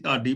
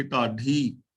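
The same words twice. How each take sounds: First: ਢਾਡੀ said with a plain unaspirated D, like ਡਾਡੀ; ਢਾਡੀ softened to ਡਾਡੀ, the everyday mistake; common wrong way. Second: ਢਾਡੀ with a breathy, low-toned ਢ at the start; correct recitation. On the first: Teacher shows how people usually misread the word, plain D. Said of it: "ਇਹਨੂੰ ਢਾਡੀ ਡੀ ਨਹੀਂ ਪੜ੍ਹਨਾ". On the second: Teacher models the right pronunciation for students, careful ਢ. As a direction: start ਢਾਡੀ with a falling-tone aspirated ਢ. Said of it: "ਇਹਨੂੰ ਢ ਕਰਕੇ ਬੋਲਾਂਗੇ". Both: Shown as a demonstration.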